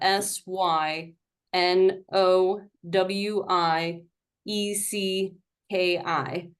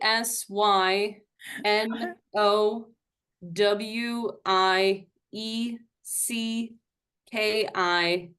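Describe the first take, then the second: First: The letters are spelled quickly. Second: The letters are spelled slowly.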